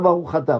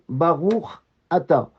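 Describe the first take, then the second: First: The final consonant runs into the next vowel. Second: The two words are kept clearly separate. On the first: The speaker calls it wrong. "pas Baruch Ata" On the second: The speaker calls it right. "faites bien attention de dire"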